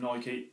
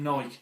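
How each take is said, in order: First: It is said the American way. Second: It is said the English way. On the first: "In America, calls them Nike" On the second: "In England, everyone calls them Nike"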